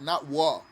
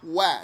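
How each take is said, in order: First: The vowel is darker, unlike the 'a' in apple. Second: The vowel is bright, like the 'a' in apple. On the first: The speaker calls it wrong. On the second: The speaker calls it right. "like apple"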